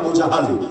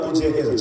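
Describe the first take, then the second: First: The second name is said with 'a' vowels. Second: The second name is said with 'e' vowels. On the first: This is a short form of the original. The speaker calls it right. "সংক্ষেপে Abu জাহাল" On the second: This is the common popular form. The speaker calls it wrong. "আপনারা অনেকে নামটা বলেন আবু জেহেল"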